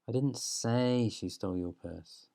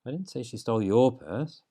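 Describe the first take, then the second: First: The stress falls on the word 'say'. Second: The stress falls on the word 'your'.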